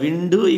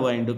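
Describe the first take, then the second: First: The vowel is a short 'i'. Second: The vowel sounds like 'eye'. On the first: It means moving air. "విండ్ అంటే గాలి" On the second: It means to wrap around. "వైండ్ అంటే చుట్టడం"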